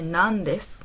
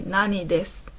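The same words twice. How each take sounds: First: The word for what is said as nan. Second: The word for what is said as nani. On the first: The speaker calls it right. "You have to say" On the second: The speaker calls it wrong. "You can't say"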